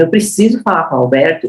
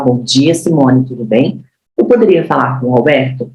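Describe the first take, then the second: First: Confident, firm request; with authority. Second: Lower, tentative asking tone; hesitant request. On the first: Trainer demos asking for the boss with authority. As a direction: say it like you own the call. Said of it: "quando eu falo com propriedade". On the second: Trainer demos a weak, timid call to the receptionist. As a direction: ask meekly, as if unsure. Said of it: "se eu falo". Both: Shown as a demonstration.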